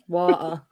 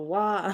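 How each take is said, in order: First: The T in the middle is clearly pronounced. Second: The T in the middle is dropped. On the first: "I pronounce the T when I say it" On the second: "You don't. You go water"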